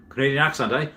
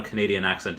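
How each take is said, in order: First: A light jokey Canadian accent on 'Canadian accent, eh?'; mock Canadian accent. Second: Said in the usual way. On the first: Shown as a demonstration. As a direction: toss off 'eh?' in a hammed-up Canadian accent. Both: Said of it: "I'm gonna try to put on a Canadian accent here".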